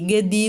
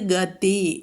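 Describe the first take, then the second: First: The second consonant is a soft, voiced d. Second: The second consonant is a hard, voiceless t. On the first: The speaker calls it wrong. "ഗതി എന്ന് പറയരുത്, മൃദു ആകരുത്" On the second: The speaker calls it right. "ഗതിയിലെ തീയും ശ്രദ്ധിക്കണം"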